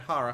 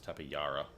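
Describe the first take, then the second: First: The J is sounded like an H. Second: The J is sounded like a Y. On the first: "because Jesus, like J" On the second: "it's probably a Y sound"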